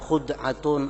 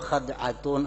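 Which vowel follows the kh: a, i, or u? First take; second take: u; a. First: The first vowel is u. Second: The first vowel is a.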